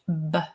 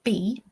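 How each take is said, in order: First: It is said as a short bare 'b' sound. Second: It is said as the letter name 'bee'. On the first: The speaker calls it right. "This is B, box" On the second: The speaker calls it wrong. "not B. B is the letter"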